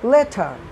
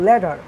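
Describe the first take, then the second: First: The middle consonant is a clear 't' sound. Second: The middle consonant sounds like a 'd'. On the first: "ব্রিটেনরা কী করে আরের উচ্চারণটা রাখে না" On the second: "টি ওটাকে ডি এর মতো উচ্চারণ করে"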